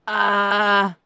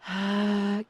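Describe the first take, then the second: First: The sound is tight and strained. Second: The sound is airy and breathy.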